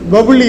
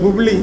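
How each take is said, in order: First: The name begins with the syllable pa. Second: The name begins with the syllable pu. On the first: The speaker calls it wrong. "பபுலி இல்லை" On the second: The speaker calls it right.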